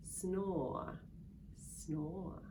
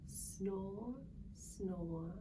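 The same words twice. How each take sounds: The two takes are said the same way.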